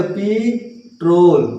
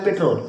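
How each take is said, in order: First: "पी ट्रोल" broken after a long pee; wrong split reading. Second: "पेट्रोल" as pet-rol, P as a pa sound; short first vowel in "पेट्रोल"; correct reading. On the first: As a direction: say P by its letter name, pause, then "ट्रोल". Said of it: "अगर इसको पी बनेंगे". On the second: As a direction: say "पेट्रोल" smoothly in one piece. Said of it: "तभी पेट्रोल बना". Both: Shown as a demonstration.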